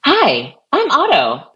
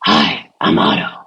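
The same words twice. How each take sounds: First: High, bright-pitched assistant greeting; second Otto voice option. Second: First Otto voice option. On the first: Auditioning another assistant voice for colleagues, high-pitched. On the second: Auditioning an assistant voice for colleagues, low and husky. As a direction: drop way down into a husky robot greeter. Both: Shown as a demonstration. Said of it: "I'll give you three options".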